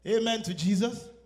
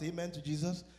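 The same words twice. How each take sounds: First: Loud call for the congregation's amen; louder call. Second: Said in the usual way. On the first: Shown as a demonstration. Preacher urging the congregation to echo him, loud. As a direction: call it out to get them answering.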